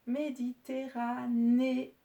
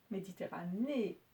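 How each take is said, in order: First: "Méditerranée" spelled out slowly and loudly, each syllable apart. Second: Said in the usual way. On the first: Shown as a demonstration. Teacher dictating "Méditerranée" to pupils, slow and loud. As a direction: sound out "Méditerranée" slowly and clearly.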